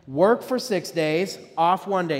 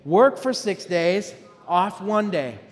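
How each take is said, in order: First: It is said plainly, without extra force. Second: It is said emphatically, with more force.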